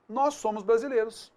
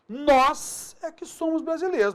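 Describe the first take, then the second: First: Said in the usual way. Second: Nós é que somos brasileiros with é que punched, pitched higher; emphatic. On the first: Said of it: "eu poderia falar simplesmente". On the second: Shown as a demonstration. Teacher demonstrating emphatic é que on brasileiros. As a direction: insist proudly, higher. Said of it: "eu quero enfatizar isso".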